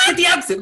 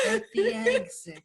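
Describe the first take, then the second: First: At the exit called out higher and louder; sharp loud At the exit. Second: At the exit drawn out slow and high; slow, soft, high At the exit; a little soft. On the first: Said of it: "I'm like". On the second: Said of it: "a little soft". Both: Retold or imitated.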